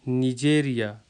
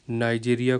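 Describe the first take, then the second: First: The name begins with a short 'ni' sound. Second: The name begins with a 'nai' sound. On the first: This is the local form, read as written. "लेकिन यहाँ पे मैं कैसे पढ़ूँगा, जो लिखा हुआ है" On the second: This is the form used in another language. "नाइजीरिया जो है वो इंग्लिश में कहते हैं या उर्दू में कहते हैं"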